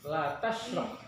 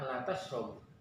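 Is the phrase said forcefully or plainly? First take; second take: forcefully; plainly. First: It is said forcefully, with strong emphasis. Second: It is said plainly, without strong emphasis. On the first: It forbids someone from drinking. "kalau sebuah jangan berarti lebih ditekankan" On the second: It states that someone does not drink. "Kalau kita ngasih tahu"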